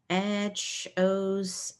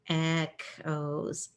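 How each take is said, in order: First: The middle consonant is a ch sound. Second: The middle consonant is a k sound. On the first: The speaker calls it wrong. "Usually this makes a ch sound" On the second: The speaker calls it right. "So we're going to change this to a k sound now"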